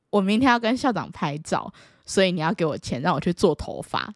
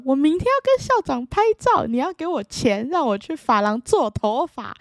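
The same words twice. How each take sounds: First: Said in the usual way. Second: Put-on high, loud kid insisting to mom; shouting to mom about the photo with the principal; loud childish demand. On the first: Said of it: "然后我就跟我妈说". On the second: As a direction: belt it out like an excited kid. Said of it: "非常非常非常大声的讲".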